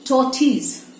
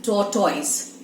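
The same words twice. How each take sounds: First: Tortoise said as "tor-tiss"; Tortoise, the correct way; correct pronunciation. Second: Tortoise said as "tor-toyz"; Tortoise, the usual mispronunciation; common wrong way. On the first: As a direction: say Tortoise ending in a short "tiss". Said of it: "what is the actual one?". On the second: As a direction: say Tortoise with a long "toyz" ending. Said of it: "How do we say that?". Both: Shown as a demonstration.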